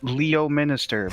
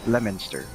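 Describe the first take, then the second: First: Every syllable of the name is pronounced. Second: Several syllables of the name are dropped. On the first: "there's a town called Leominster" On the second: "but we pronounce it Leominster"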